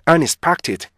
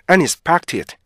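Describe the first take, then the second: Both takes have the same delivery.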